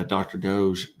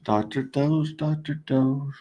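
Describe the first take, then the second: First: Said in the usual way. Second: Higher, sing-song "Doctor Doge"; a playful higher sing-song call. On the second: Pretend. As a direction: call it like paging a pet. Sing-song calling the token.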